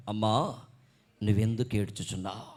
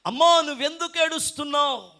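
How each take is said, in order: First: Low-pitched, understated question; voice from behind. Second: High, loud, projected question; Jesus. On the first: The voice Mary hears behind her as she weeps, low and restrained. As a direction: ask it in a deep, restrained voice. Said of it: "ఏమిటంటే ఆ స్వరం". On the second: Jesus standing behind Mary asks her, raised and forceful. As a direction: call it out with preacher's force. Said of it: "సాక్షాత్తు యేసు ప్రభువే". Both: Acted.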